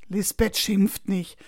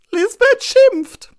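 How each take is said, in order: First: Slow, level big-sister voice; unhurried, matter-of-fact comfort; calm reassurance. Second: Very high, loud, slow wail; drawn-out high-pitched cry of dread; panicked child. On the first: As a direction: soothe a frightened little brother. Sister calmly contradicts the boy's fear. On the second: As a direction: wail it like a frightened little boy. Boy panics about teacher scolding. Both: A narrator's reading.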